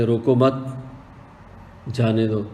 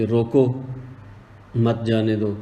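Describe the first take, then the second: First: "روکو مت" as one unit, long break, then "جانے دو"; pause after مت. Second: "روکو", a clear break, then "مت، جانے دو"; pause after روکو. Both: Shown as a demonstration. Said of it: "اگر آپ اس کو ایسے پڑھیں".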